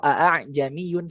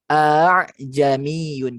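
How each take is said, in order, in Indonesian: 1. Dua bunyi hamzah itu diucapkan terpisah. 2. Dua bunyi hamzah itu disatukan menjadi satu. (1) "satu-satu kan, satu ketukan" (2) "bacanya ini ya disatukan"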